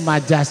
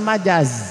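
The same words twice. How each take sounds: First: The last consonant is a hissing s sound. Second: The last consonant is a buzzing z sound. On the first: The speaker calls it wrong. "zai teh dibaca as" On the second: The speaker calls it right. "padahal majaz"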